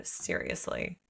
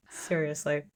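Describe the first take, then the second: First: "seriously" dropped low and soft with a rising end; exasperated seriously. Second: Said in the usual way. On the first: Real, not acted. Host reacting to a stubborn man, low exasperated "seriously". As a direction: sigh out "seriously" in disbelief. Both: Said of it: "My God".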